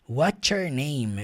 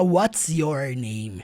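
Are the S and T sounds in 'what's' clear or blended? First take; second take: blended; clear. First: The S and T blend into a 'ch' sound. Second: The S and T sounds are said clearly. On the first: The speaker calls it right. "você vai ver desse jeito aqui, watcher" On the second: The speaker calls it wrong. "Ele não fala what's your name"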